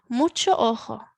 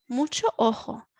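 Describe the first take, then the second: Both takes have the same delivery.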